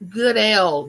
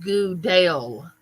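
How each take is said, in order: First: The name ends like the letter L. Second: The name ends like the word 'dale'. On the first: The speaker calls it right. "Wait, good L" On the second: The speaker calls it wrong. "not Goodale"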